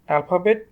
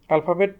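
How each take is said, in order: The two takes are said the same way.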